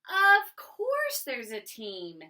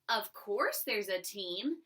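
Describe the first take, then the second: First: It is read with excitement. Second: It is read flatly, without excitement.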